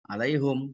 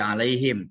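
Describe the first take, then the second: First: The vowel after the h is a 'u' sound. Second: The vowel after the h is an 'i' sound. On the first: This is an alternative accepted reading. "Alaihum, bukan alaihim" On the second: This is the majority reading. "mengkasrohkan huruf H dan men mensukunkan huruf mim"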